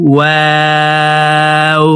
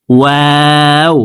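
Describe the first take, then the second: First: ওয়াও with rounded lips, held slow and sung; drawn-out letter. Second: Said in the usual way. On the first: Shown as a demonstration. Teacher demonstrates the letter to viewers, slow chant. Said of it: "দুই ঠোঁট গোল করে". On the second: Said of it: "উচ্চারণ করে পড়তে হবে".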